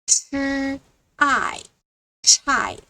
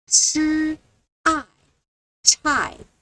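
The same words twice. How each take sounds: No difference in how they are said.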